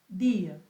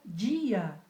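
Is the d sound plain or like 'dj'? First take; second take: plain; dj. First: The d is a plain d before the vowel. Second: The d is softened into a 'dj' sound. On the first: The speaker calls it right. "há que sair solo ela e la vocal" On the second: The speaker calls it wrong. "não pode ser pronunciada dia, como em la língua portuguesa"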